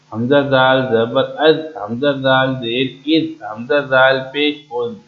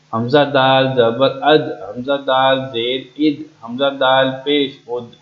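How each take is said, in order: No difference in how they are said.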